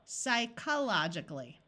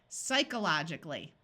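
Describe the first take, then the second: First: The o vowel is said as a short o. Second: The o vowel is reduced to a schwa. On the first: "Let's switch this long O to a short O" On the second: "Now let's try schwang it"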